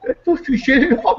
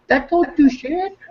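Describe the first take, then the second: First: High, laughing through That don't do shit at all; amused retelling; laughing repeat. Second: High and slow, leaning on don't; scoffing, stretched emphasis; slow scoffing stress. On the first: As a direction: chuckle as you say it again. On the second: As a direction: drawl That don't do shit out, high. Repeats his own line slowly. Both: Retold or imitated.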